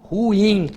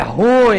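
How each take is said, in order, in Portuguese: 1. São duas sílabas, com a tônica no I. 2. É uma sílaba só, com a tônica no U. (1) "A vogal tônica é o I. Ruim, duas emissões" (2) "Não, a pronúncia, de acordo com a norma culta"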